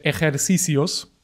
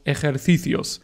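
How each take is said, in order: First: The c sounds like an s. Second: The c sounds like th. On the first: This is how Latin American speakers say it. "dice ejercicios" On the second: This is how speakers from Spain say it. "y no ejercicios"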